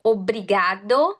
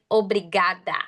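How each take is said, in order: First: "Obrigado" with open "ga", rising at the end; "Obrigado" lifted, as first of two; open Portuguese sounds. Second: "obrigada" with a clear final "ah", falling; "obrigada" closing the pair, open vowels; open Portuguese sounds. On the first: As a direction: repeat "Obrigado" for learners, ending in "do". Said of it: "I'm gonna say it again". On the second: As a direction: model "obrigada" ending on open "da". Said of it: "those are open sounds". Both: Shown as a demonstration.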